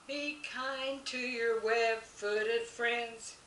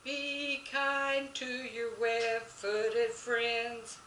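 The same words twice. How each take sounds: First: Slow, higher sung line; sung children's song. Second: Very slow, higher singing; sung, lead the kids, stretching each word; sung singalong. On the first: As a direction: sing it sweetly and slowly for the kids. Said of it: "Here we go". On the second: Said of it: "Now you can sing it with me". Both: Shown as a demonstration.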